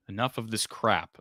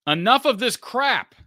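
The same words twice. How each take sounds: First: Said in the usual way. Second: High, loud and slow, hammed up; loud mock outburst. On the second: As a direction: bellow the viewer's complaint. Reading out a viewer's super chat.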